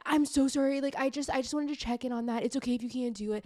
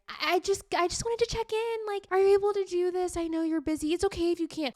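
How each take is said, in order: First: A touch higher, quick apologetic rush; mock a man who says sorry too much, hurried; over-apologizing guy. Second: Much higher, louder, apologetic little voice; over-apologizing woman. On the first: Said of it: "Like, over apologizing". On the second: Retold or imitated. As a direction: tiptoe around asking, sugary and nervous. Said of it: "women are always, like, over apologizing".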